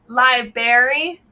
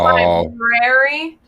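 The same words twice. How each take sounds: First: The R after the b is dropped. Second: The R after the b is pronounced. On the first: The speaker calls it wrong. "these two say library" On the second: The speaker calls it right. "There's an R there that they do not pronounce"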